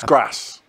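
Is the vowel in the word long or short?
short. The vowel is short, as in 'cat'. The speaker calls it right. "It's grass"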